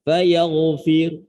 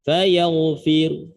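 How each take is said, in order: No difference in how they are said.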